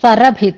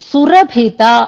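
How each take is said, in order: First: The first vowel is 'a'. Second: The first vowel is 'u'. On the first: The speaker calls it wrong. "సరభిత అన్నారు" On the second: The speaker calls it right. "సురభిత అన్నది"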